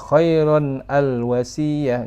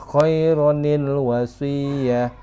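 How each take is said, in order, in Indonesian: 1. Kata-kata itu disambung dengan 'al' yang terpisah. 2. Kata-kata itu disambung dengan 'nil' penyambung. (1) "bukan dibaca khairon al wasiyah, enggak" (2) "tapi dibaca khaironil wasiyah"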